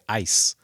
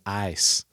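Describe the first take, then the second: First: A plain, short vowel without a Southern drawl. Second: A drawn-out vowel with a Southern drawl. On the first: The speaker calls it right. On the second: The speaker calls it wrong.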